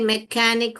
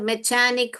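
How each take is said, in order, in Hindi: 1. बीच का व्यंजन k की आवाज़ है। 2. बीच का व्यंजन ch की आवाज़ है। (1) "क पढ़ेंगे मैकेनिक हो जाएगा" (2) "यहाँ पे यह च पढ़ेंगे तो मैकेनिक हो जाएगा"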